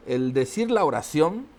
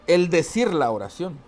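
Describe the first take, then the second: First: "la" lifted and held before "oración"; stress on LA. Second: "decir" punched, whole phrase a little louder; stress on DECIR. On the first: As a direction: lean on "la", then rise at the end. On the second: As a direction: hit "decir" hard and let it rise. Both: Shown as a demonstration. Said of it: "le dé entonación o énfasis a una plática".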